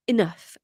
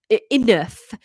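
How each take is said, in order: First: Said in the usual way. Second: Put-on mildly angry, louder Welsh teen. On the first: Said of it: "He's not really angry". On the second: Teenage son interrupts his father, mildly angry. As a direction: cut in with a touch of anger. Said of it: "I don't know why he's angry".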